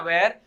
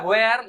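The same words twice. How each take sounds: First: वेयर as one syllable, wair; correct pronunciation. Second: वेयर as hway-ar, two syllables; spelling pronunciation. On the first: Teacher giving spoken form, one-syllable वेयर. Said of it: "उसे pronounce करना है". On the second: Teacher showing written form, two-syllable वेयर. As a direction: say वेयर stretched as written, louder. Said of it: "भले वो लिखा हुआ है". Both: Shown as a demonstration.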